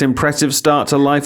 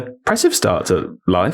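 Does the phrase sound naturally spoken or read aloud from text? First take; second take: read aloud; natural. First: It sounds flat, like reading aloud from text. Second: It sounds casual, like spontaneous conversational speech. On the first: The words are being read off a page. The speaker calls it wrong. "This is what you do when someone asks you to read something" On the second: The speaker's own opinion is being given. The speaker calls it right. "as though I'm thinking about where to go"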